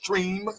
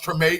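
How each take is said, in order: First: It is said the way outsiders say it. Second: It is said the way locals say it. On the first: The speaker calls it wrong. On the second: The speaker calls it right.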